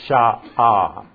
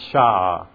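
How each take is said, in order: First: Two syllables are split by a throat catch. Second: The word is said as one syllable. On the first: The speaker calls it right. "that's two syllables" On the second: The speaker calls it wrong. "not sha"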